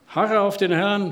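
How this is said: It is said in a reproachful tone. The listeners are being reproached. "Was war vorwurfsvoll? ... Ich habe das bewusst so gemacht"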